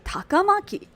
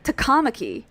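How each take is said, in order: First: The second syllable carries no strong stress. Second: The second syllable carries a strong stress. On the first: The speaker calls it right. "but it should be Takamaki" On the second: The speaker calls it wrong. "they say, like, Takamaki, because that's based on the, the second syllable stress"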